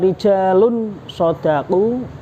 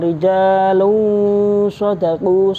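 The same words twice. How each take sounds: First: The n before the sh sounds fully clear. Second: The n before the sh sounds muffled, not clear. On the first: The speaker calls it wrong. "bukan dibaca rijalun shadaqu" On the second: The speaker calls it right. "suaranya agak samar, tidak berngengeng, tidak dengung"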